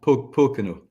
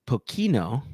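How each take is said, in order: First: "Pocono" stressed on the first syllable, PO-co-no; correct pronunciation. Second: "Pocino" said with a tentative guess at the stress; unsure first try. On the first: Guest corrects the host on his distillery name, stressing the first syllable. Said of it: "probably the other way around". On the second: Host tries the distillery name, unsure of the stress. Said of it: "emphasis on the right syllable". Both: Shown as a demonstration.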